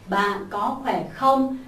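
The pitch rises at the end. The speaker calls it right. "trong câu hỏi thì phải lên giọng"

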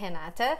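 The name is said with a Portuguese pronunciation. This is how people at home say the name. "in Portuguese, people call me Renata"

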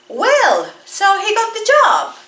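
It is said with a surprised tone. The speaker did not expect him to get the job. "Ajá, sorpresa"

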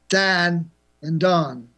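It is spoken with a Chicago accent. "In Chicago, it's Dan and Don, but they're different"

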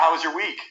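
It is said in a neutral, level tone.

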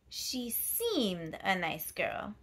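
The stress is on the word seemed.

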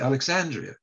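It is said in a non-British pronunciation. It gave away that the speaker was not British. The speaker calls it wrong. "I said Alexandria. And the British don't pronounce it that way"

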